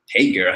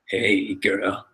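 First: The greeting sounds smooth and charming. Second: The greeting sounds creepy and off-putting. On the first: The sender left an attractive impression. "you gave her the impression that you're attractive" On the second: The sender left a bad impression. "like a creepy hey"

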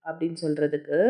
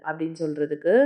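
The two takes are said the same way.

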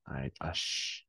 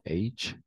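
First: The letter name is said the French way. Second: The letter name is not said the French way. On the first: The speaker calls it right. "en français, on dit H" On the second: The speaker calls it wrong. "Pas H"

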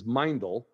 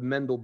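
First: The name is said the original, native way. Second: The name is said the common anglicized way. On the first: The speaker calls it right. "the proper pronunciation is Meindl" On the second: The speaker calls it wrong. "I'm gonna say the name of the boot the way you mostly do"

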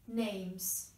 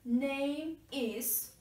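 First: The words are linked with a long S sound. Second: The two words are said separately. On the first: The speaker calls it right. "make this S sound longer, as if it is a plural form of name" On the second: The speaker calls it wrong. "Instead of saying this, name is, divide them in pronunciation"

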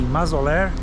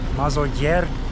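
First: The double L sounds like a plain L. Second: The double L sounds like a Y or J.

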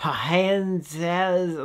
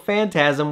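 First: The word begins with a P sound. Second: The word begins with an F sound. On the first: The speaker calls it wrong. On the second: The speaker calls it right.

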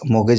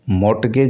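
First: The t is silent. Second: The t is sounded. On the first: The speaker calls it right. "मोगेज में टी silent है" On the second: The speaker calls it wrong. "नहीं पढ़ा जाना चाहिए"

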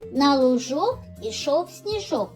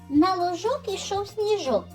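First: It is spoken at a slower pace. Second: It is spoken at a faster pace.

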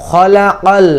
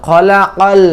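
No difference in how they are said.

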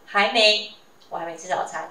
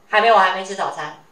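First: There is a pause after the first 还没. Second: The words run on without any pause. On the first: "其实中间是有断点，就是有pause 的，有停顿的" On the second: "他就是没有停顿"

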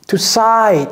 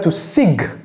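First: The word ends without a g sound. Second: The word ends with a hard g sound. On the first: The speaker calls it right. "To sigh, tout simplement" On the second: The speaker calls it wrong. "Ne dites pas to sig"

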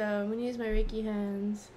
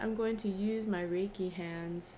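First: The words are mumbled and run together. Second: The words are clearly and carefully enunciated. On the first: The speaker calls it wrong. "I need to enunciate a little bit more" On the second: The speaker calls it right. "I said"

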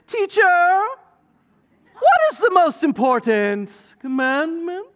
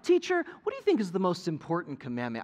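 First: It is said in a scheming Disney-villain voice. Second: It is said in a plain, sincere voice.

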